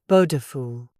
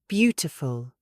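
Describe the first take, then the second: First: The middle T sounds like a soft D. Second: The middle T is a clear, released T. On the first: The speaker calls it wrong. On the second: The speaker calls it right.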